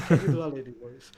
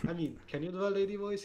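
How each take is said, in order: First: Loud, booming casting director. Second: Said in the usual way. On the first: Pretend. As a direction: call it out like an audition host. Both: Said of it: "Here, this is the casting booth".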